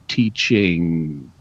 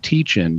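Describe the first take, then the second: First: The word ends in a nasal ng sound. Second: The word ends in a plain n sound. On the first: "you say teaching. And, and so you're pushing some of the air through your nose" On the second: "instead of saying teaching"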